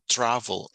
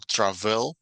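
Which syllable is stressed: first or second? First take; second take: first; second. First: The stress is on the first syllable. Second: The stress is on the second syllable. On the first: The speaker calls it right. "las otras la llevan al principio" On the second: The speaker calls it wrong. "No decimos"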